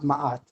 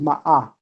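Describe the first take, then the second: First: The word ends with a final t sound. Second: The word ends without a final t sound. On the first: This is a much later form of the name. The speaker calls it wrong. "It's not Ma'at" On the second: This is the oldest form of the name. The speaker calls it right. "the original way to pronounce Ma'at is actually Ma'ah"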